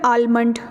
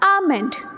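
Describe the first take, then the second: First: The L sound is clearly pronounced. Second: The L sound is completely silent. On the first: The speaker calls it wrong. "इसको लोग क्या पढ़ते हैं, आलमंड ... जो कि बिल्कुल गलत है" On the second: The speaker calls it right. "एल इसमें साइलेंट है ... इट्स प्रोनाउंस्ड एज आमेंड"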